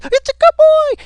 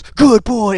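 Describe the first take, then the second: First: Very high, loud squealed praise; screeching high pitch. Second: Higher and louder, a squeal; imitating a man cooing at his dog; high squeaky praise. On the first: Retold or imitated. Mimicking the officer's screeching high-pitched dog praise. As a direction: squeal it like a man gushing over his dog. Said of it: "just this screeching high pitch". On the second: Imitating the officer's squeaky praise for the dog. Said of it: "He goes".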